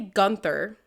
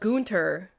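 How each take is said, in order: First: The name is said with an American pronunciation. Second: The name is said with a German pronunciation. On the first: "like an American" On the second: "sounds like a tryhard"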